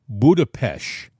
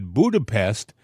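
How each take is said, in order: First: The last syllable ends with an 'sh' sound. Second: The last syllable ends with a plain 's' sound. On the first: It follows the Hungarian way of saying the name. "pronounce it Budapest, like ish" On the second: It follows the usual English way of saying the name. "they pronounce it Budapest in uh, in English"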